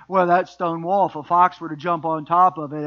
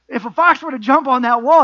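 First: Put-on country accent. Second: Said in the usual way. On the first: Preacher voices the sidekick mocking the wall, country accent. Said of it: "gave him a country accent". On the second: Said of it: "I don't know why I gave him a country accent".

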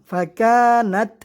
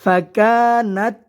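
First: ফাকানাত ending cleanly on a breathy t; stop with breath. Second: ফাকানাত with a light puff of air on the final t; final t with breath. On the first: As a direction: pause after ফাকানাত with air on the t. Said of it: "নাত বলে থামা হবে না". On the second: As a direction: let air escape on the t of ফাকানাত. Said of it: "উচ্চারণটা আপনারা মনোযোগ দিয়ে শুনুন". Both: Shown as a demonstration.

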